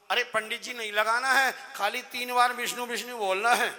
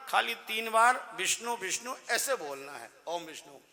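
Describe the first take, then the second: First: Louder copy of the pandit's instruction, with a laugh at the end; loud mocking echo; mimicking the pandit. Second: Said in the usual way. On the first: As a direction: parrot the priest back at him, loud and cheeky. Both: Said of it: "मेरी नकल कर रहा है".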